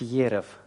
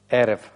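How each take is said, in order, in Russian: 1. Слово начинается со звука й. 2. Слово начинается с горлового звука, рот широко открыт. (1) "айн не нужно произносить как йод. То есть не следует говорить ерев" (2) "палестинцы, арабы произносят айн вот таким образом, как бы немножечко расширяя рот"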